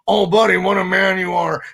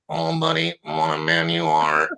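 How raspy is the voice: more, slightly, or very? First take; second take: more; very. First: The impression sounds noticeably more worn and raspy. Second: The impression sounds extremely worn and raspy.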